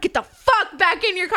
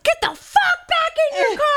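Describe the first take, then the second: First: Repeated yell. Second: High yelled command; yelled order. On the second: To the screaming old man, yelled order. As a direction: bark him back to his car. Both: Retold or imitated. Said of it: "I'm like".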